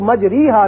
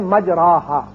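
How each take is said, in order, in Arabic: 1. الحركة بعد الراء هي i كاملة. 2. الحركة بعد الراء هي a بسيطة مفتوحة. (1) "इसको मजरीहा नहीं पढ़ेंगे" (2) "असल में यह है मजराहा"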